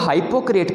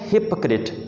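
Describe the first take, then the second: First: The first vowel sounds like 'high'. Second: The first vowel sounds like 'hip'. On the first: The speaker calls it wrong. "जो कि गलत है" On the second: The speaker calls it right. "इससे आप पढ़ना है हिपोक्रेट"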